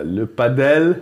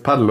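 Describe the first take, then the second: First: Slow, drawn-out French pa-DELL; mock French. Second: Paddel stressed on the first syllable; German-style pronunciation. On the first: Friend teasing about the French origin, mock French accent. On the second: Shown as a demonstration. Friend doubting the sport's name, Paddel as PAD-dl. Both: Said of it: "das kommt aus Frankreich".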